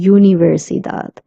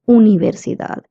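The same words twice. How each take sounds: First: The first vowel is said like yoo. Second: The first vowel is said as plain oo. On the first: The speaker calls it wrong. "we're not saying universidad" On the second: The speaker calls it right. "We say universidad"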